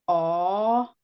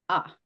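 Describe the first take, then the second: First: The vowel is held long. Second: The vowel is cut short. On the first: "a long A" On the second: "a short A"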